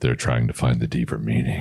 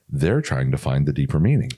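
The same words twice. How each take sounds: First: It is said in a smooth, seductive voice. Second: It is said in a polite customer-service voice. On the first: "give us the sexy, um, sexy voice" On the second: "I popped into customer service voice"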